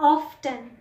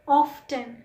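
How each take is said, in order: The two takes are said the same way.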